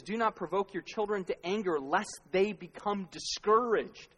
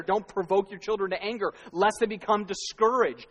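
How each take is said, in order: First: Measured scripture quote, last line slowed; quoting scripture. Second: Verse repeated louder and pressing; emphatic scripture. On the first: Pastor quoting the verse to parents, measured and deliberate. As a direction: read the verse steadily, drawing out discouraged. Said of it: "When he says". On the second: Pastor driving the verse home to parents, louder and insistent. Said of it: "how is right there". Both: Retold or imitated.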